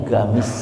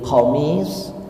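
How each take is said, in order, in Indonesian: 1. Kata ini diawali dengan bunyi g. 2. Kata ini diawali dengan bunyi q tenggorokan yang dalam. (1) "Jadi qaf itu bahasa harian mereka dibacanya ghain" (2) "qaf itu dibacanya go, ghain"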